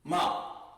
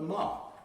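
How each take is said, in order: First: The vowel sounds like 'ah'. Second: The vowel sounds like 'ah'.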